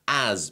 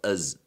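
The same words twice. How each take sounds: First: The word has a full, clear vowel. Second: The word has a reduced, weak vowel.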